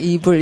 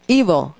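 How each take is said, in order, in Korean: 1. 첫 음절은 약하게 발음해요, 한국어 'ibul'처럼요. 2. 첫 음절을 강하게, 세게 발음해요. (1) "이 발음을 이불 이렇게 하시면은 잠이 올 뿐이에요" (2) "이에다가 세게 해서 evil"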